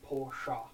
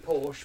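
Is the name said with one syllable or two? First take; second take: two; one. First: The name is two syllables, ending in an uh sound. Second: The name is one syllable with a silent final e. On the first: "it's German pronunciation is Porsche" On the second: "I say Porsche"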